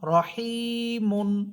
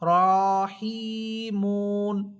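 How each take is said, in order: First: The first vowel is short; only the second is long. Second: The first vowel is drawn out long. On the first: The speaker calls it right. "এইভাবে বলবেন" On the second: The speaker calls it wrong. "এভাবে বলা যাবে না"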